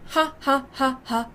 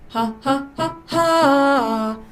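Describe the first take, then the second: First: Each ha is short and detached. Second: Each ha is long and drawn out. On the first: "let's move into a phonated laugh" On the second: "apply this to an elongated laugh"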